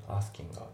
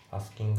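First: "asking a" run together as one word; linked sounds. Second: "asking a" with a full g, then a separate a; unlinked words. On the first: Teacher demonstrating linking to learners, linked "asking a". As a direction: link g straight into a in "asking a". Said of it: "リンキングで". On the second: Teacher showing learners what to avoid, unlinked "asking a". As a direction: split "asking a" into two distinct words. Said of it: "じゃないですね". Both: Shown as a demonstration.

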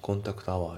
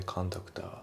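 First: コンタクトアワー as "kontakuto awaa"; katakana-style, full "to" in コンタクトアワー; unlinked words. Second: コンタクター as "kan-tak-ta"; linking. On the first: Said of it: "じゃなくて". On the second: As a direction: merge the T into the vowel in コンタクター. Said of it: "リンキングで". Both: Shown as a demonstration.

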